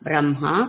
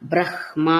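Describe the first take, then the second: First: No h sound comes right before the m. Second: An h sound comes right before the m. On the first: The speaker calls it wrong. "కాదు" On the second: The speaker calls it right. "స్వచ్ఛమైన సంస్కృత ఉచ్చారణ బ్రహ్మ అని మాత్రమే"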